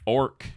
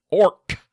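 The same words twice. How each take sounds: First: Said in the usual way. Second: "Orc" punched high and loud; emphatic ORC. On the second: Shown as a demonstration. Player setting the forty K kind apart, "Orc" shouted high. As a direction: bark out "Orc" much higher and louder. Contrasting two spellings of orc.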